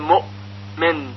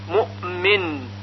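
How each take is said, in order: First: The glottal stop is held firmly with no bounce. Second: The glottal stop is released with a slight bounce. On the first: The speaker calls it wrong. "یعنی گفته نمیشه مؤمن، مؤمن مثل یأتی" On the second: The speaker calls it right. "بلکه صحیح هون این طور هست"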